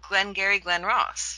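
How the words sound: The vowel in Glen sounds like pen. This is the speaker's own usual pronunciation. "Now you say it the way you say it"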